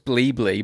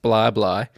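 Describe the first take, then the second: First: Each syllable has an 'ee' vowel. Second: Each syllable has an 'eye' vowel. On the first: The speaker calls it wrong. "I actually thought it was Blee Blee" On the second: The speaker calls it right. "found out it's pronounced Bly Bly"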